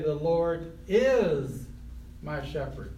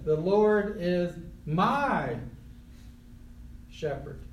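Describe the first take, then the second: First: The word is carries the stress. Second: The word my carries the stress. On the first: The shepherding is happening right now. "Present tense, right now" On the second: The shepherd belongs personally to the one speaking. "And if you know Jesus, he's your shepherd"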